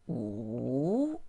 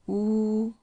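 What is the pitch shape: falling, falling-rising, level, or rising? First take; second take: falling-rising; level. First: The pitch dips low and then rises. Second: The pitch stays high and level. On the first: "falling, rising" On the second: "high flat one"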